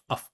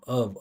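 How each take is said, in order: First: The word ends with a voiceless f sound. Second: The word ends with a voiced v sound. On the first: The speaker calls it wrong. "We never say uff" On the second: The speaker calls it right. "the one with vibration, is V"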